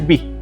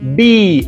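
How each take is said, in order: First: The vowel is short and plain. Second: The vowel is long and drawn out. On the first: The speaker calls it wrong. "Ya no puede ser B, porque esa I es normal" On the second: The speaker calls it right. "Tiene que ser I alargada, exagerada"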